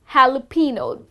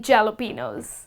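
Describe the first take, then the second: First: Jalapeno said hah-lah-PEH-noh with an h sound; correct jalapeno. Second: Jalapenos said with a hard j, jel-o-PEE-nohs; wrong jalapenos. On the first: Teacher modelling jalapeno for sandwich orderers, h sound. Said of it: "That's the correct way to pronounce this word". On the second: Teacher showing the mistake to avoid, hard j. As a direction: jalapenos with an English j. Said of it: "do not end up saying". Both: Shown as a demonstration.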